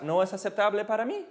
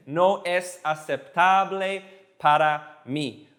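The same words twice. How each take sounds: First: "No es aceptable para mí" run together quickly; fast demonstration. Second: "No es aceptable para mí" very slowly, word by word; slow demonstration. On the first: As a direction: rattle off "No es aceptable para mí" as one phrase. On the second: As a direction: spell out each word of "No es aceptable para mí" with pauses. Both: Shown as a demonstration. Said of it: "And if you say it fast".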